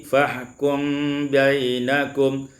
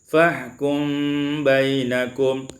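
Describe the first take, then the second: Both takes have the same delivery.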